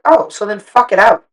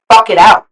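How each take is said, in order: First: Said in the usual way. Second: "Fuck" punched, loud and a bit higher; emphatic repeat. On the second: Retold or imitated. Repeating her advice to a stunned boat friend, stressing "Fuck". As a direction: lean hard on "Fuck" in "Fuck it out.".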